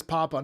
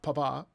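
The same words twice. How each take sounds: First: "Papa" stressed PA-pa; "Papa" as PAH-puh; stress on first syllable. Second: "Papa" stressed pa-PA; "Papa" as puh-PAH; stress on last syllable. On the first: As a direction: say "Papa" with the weight up front. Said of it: "not Papa". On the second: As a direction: say "Papa" with the weight on the final a. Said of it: "there's no accent over the A". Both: Retold or imitated.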